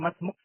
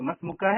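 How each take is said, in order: First: The word ends on the final consonant k. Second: The word ends with a short a vowel. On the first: "आप उसको मसमुक पढ़ेंगे" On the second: "मसमुका है"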